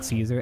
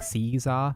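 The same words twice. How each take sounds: First: The word begins with an S sound. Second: The word begins with a K sound. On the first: This is how English speakers say it. "in English do we pronounce Caesar like Caesar" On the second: This is how it is said in the original. "and not like Caesar"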